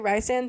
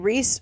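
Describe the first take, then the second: First: The first syllable does not sound like 'Reese'. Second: The first syllable sounds like 'Reese'. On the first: The speaker calls it wrong. "I technically am pronouncing it wrong" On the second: The speaker calls it right. "It just makes me think of Reese's Pieces"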